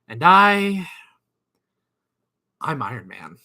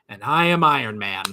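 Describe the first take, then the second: First: There is a pause after "And I". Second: It is said smoothly without a pause. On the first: "did he put a pause in there?" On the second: "at first I was like, I thought he said it like"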